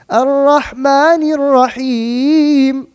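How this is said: The melody lifts upward, sounding uplifted. It conveys hope in the mercy. The speaker calls it right. "Even better. I'm taking it up even more"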